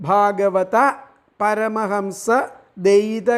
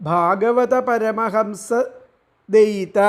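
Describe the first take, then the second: The two takes are said the same way.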